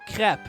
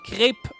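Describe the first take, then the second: First: The word is said with the crap vowel. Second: The word is said with the crepe vowel. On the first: The speaker calls it wrong. "not crap" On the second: The speaker calls it right. "Remember to say crepe"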